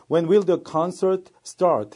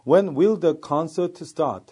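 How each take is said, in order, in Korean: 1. start의 R은 또렷하게 발음돼요. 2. start의 R은 거의 소리가 안 나요. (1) "R 발음이 확실히 살아나는 발음" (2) "이 R 발음이 죽어나가는 발음"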